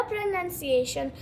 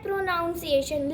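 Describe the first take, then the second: First: "प्रोनाउंसिएशन" said pro-nun-see-AY-shun, with a short "nun"; correct pronunciation. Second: "प्रोनाउंसिएशन" said pro-NOUN-see-ay-shun, with "ow"; common mispronunciation. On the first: Teacher giving learners the right word, "प्रोनाउंसिएशन" said with "nun". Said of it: "लेकिन वो गलत है". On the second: Teacher quoting what some people say, "प्रोनाउंसिएशन" mispronounced with "noun". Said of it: "अब कुछ लोग बोलते हैं". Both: Shown as a demonstration.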